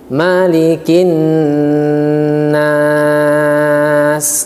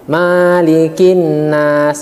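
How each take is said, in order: First: The vowel after the m is kept short. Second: The vowel after the m is drawn out long. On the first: The speaker calls it right. "ma-nya tidak panjang" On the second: The speaker calls it wrong. "membaca panjang di huruf ma ... suatu kesalahan"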